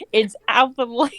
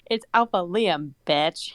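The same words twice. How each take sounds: First: Higher voice, cracking up; growl broken by laughter. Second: Mild, composed mock growl; a touch of menace, laugh held back. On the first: Mate correcting her, reader laughing through it. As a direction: try the villain's line while giggling. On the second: Mate growling at her in the corner, mildly menacing. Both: A narrator's reading. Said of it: "he growled at me".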